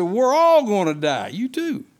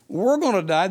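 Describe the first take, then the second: First: Louder, higher cry that everyone will die; mock panic, louder and higher; mock panicked cry. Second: Said in the usual way. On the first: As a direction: cry out in alarm, stressing all. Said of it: "They said". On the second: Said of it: "they weren't saying".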